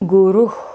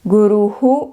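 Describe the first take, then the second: First: The word ends in a plain breathy h. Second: The final h is followed by an echoed u. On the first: "is the correct pronunciation" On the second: "the South Indian way"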